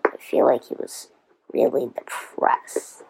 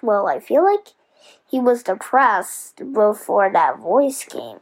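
First: Quick, much lower whisper; whispered aside. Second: Said in the usual way. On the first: Real, not acted. Host musing that Wilbur was depressed, whispering. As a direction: repeat the thought as a secret whisper.

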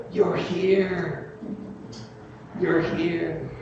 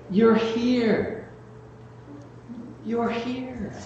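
First: Soft, high, full of wonder; tender. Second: Soft, high, breathless wonder; tender whisper. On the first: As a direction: hush it like a joyful father. Father greets returning son. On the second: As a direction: hush it, full of wonder. Dying mother greeting family. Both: Retold or imitated.

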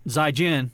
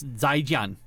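First: Zaijian in an American accent. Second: Zaijian said slowly with Chinese tones; correct Chinese pronunciation. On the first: Showing what doesn't sound like anything, American accent. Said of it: "in, like, an American accent". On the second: Showing how you say goodbye, careful Chinese pronunciation. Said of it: "is how you say goodbye". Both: Shown as a demonstration.

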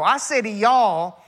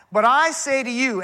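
First: Slow, leaning hard on "y'all" to make it plural; stress on y'all. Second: Said in the usual way. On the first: Shown as a demonstration. Preacher explaining a plural word to the congregation, stressing "y'all". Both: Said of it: "that word you is plural".

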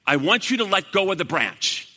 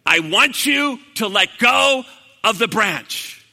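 First: Said in the usual way. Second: Loud, drawn-out command; slow emphatic repeat. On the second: Retold or imitated. God repeating the order to Jack, slow and emphatic. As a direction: spell it out slowly and forcefully.

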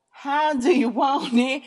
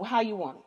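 First: High, loud, drawn-out question; mock-outraged shout, stretching each word; exaggerated demand. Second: Said in the usual way. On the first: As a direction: call it out slowly and loudly.

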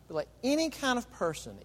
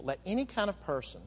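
First: "any" pushed up high and held; stress on any. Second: Said in the usual way. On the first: Shown as a demonstration. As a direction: lift the word "any" well above the rest.

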